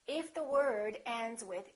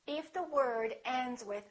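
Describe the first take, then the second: The two takes are said the same way.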